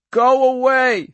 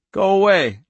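First: High, loud, drawn-out scream. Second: Thin, high, loud warning. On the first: Girl screams at the men to leave, screaming. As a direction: scream it slowly, stretching the words. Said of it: "she screamed". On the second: Girl warns off the arriving men, thin and high. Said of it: "Her voice was thin and high". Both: A narrator's reading.

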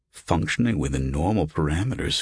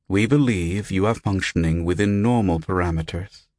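First: Lightly mocking, questioning repeat; incredulous echo. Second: Measured, impersonal system announcement; hollow recorded voice. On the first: Patient puzzling over the strange voice's wording, incredulous. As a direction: echo the odd phrase in disbelief. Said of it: "Who the hell talks like that?". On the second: Unseen voice reporting on the patient, hollow and recorded. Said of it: "The voice sounded hollow, recorded". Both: A narrator's reading.

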